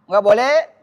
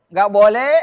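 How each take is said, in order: Both takes have the same delivery.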